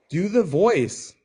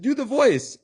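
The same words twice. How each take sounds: First: Mock shouted request. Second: Very high, insistent shout; louder demand. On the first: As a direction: call it out over the music. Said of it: "And she was like". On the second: Retold or imitated. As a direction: shout it again over loud music. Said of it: "And she's like".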